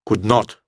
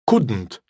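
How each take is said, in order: First: Not is a separate, stressed word. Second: Not is shortened and joined onto could. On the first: It sounds more serious and formal. "если not ставится целиком, то оно и пишется, и произносится отдельно. И на нем всегда делается ударение" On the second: It sounds casual and conversational. "можно и урезать not, присоединить его к could. Тогда получится couldn't"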